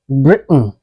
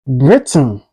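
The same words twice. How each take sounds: First: BRITAIN with a catch for the T, "Bri'n"; swallowed T. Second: BRITAIN with the T released before N; T fully pronounced. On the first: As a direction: say "Britain" American style, swallowing the T. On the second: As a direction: say "Britain" with an audible T. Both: Shown as a demonstration. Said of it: "it's pronounced like".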